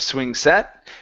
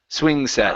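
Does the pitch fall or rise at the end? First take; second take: rise; fall. First: The pitch does not come down at the end. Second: The pitch comes down at the end. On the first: The speaker calls it wrong. "instead of" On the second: The speaker calls it right. "come down"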